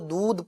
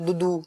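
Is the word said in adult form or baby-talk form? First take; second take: adult form; baby-talk form. First: The word is said plainly with one syllable. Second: The word gets an extra childish vowel at the end. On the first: The speaker calls it right. "दूध proper नहीं बोलेगा" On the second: The speaker calls it wrong. "वो दूधू"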